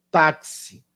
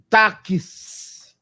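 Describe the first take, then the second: First: Said in the usual way. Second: "táxi" drawn out as tá-kiss, with a long final s; sounded out. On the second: Shown as a demonstration. Teacher showing five phonemes in four letters, "táxi" sounded out slowly. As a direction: stretch "táxi" so the k and s sounds separate. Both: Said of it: "falou mais coisas do que você conseguiu ler".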